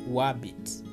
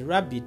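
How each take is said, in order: First: The word begins with a W sound. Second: The word begins with an R sound. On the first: The speaker calls it wrong. "Substituting a letter W for a letter R" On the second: The speaker calls it right. "If a person is going to say a rabbit"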